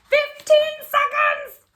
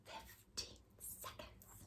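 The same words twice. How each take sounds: First: High, loud, slow shout of joy; thrilled yell of the result; triumphant shout. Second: Slow breathless whisper; whispered reveal of the time; suspenseful whisper. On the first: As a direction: burst out with the winning time. Shouting the winning time. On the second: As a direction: hush it, holding the suspense. Reading the timer in suspense. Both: Acted.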